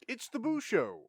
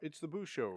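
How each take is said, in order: First: It is said with lively energy. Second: It is said in a flat monotone.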